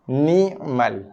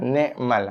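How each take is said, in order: First: The first vowel sounds like 'i' with a glottal break. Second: The first vowel sounds like 'e' with a 'k'. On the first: The speaker calls it right. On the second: The speaker calls it wrong.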